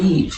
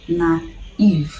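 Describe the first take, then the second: First: The two vowels are blended into one sound. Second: The two vowels are said as separate sounds. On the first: The speaker calls it wrong. "instead of saying naive" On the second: The speaker calls it right. "you say naive"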